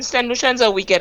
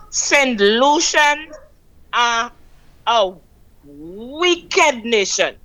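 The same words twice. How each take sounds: First: Said in the usual way. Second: "Saint Lucian are a wicked nation" spaced out with long pauses, very slow; slow, word by word. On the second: Real, not acted. Caller repeats her point to the host, slow and emphatic. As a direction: hammer each word of "wicked nation" slowly. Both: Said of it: "I will keep saying that".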